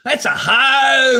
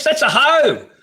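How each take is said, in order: First: Loud, slow, drawn-out yell; furious shouted insult; slow angry shout. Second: Said in the usual way. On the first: Real, not acted. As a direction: drag it out and bellow it. Ranting about the royal family.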